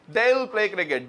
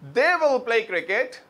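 First: They and will are merged into one syllable. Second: They and will are said as two separate words. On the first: "देल" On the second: "दे विल नहीं"

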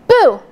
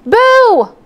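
First: It is shouted at a normal loudness. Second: It is shouted more loudly.

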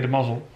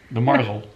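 First: The word is said without an R sound. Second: The word is said with an R sound. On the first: The speaker calls it right. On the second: The speaker calls it wrong.

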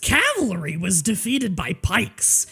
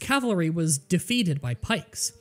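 First: It is read in a put-on goblin voice. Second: It is read in the speaker's ordinary voice.

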